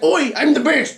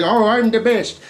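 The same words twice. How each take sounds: First: Lightly put-on British accent, cocky; a hint of a cheeky British teen; a touch of British swagger on "Oi"; mock British accent. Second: Said in the usual way. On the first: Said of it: "because he's British apparently". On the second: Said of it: "he doesn't even say it like that".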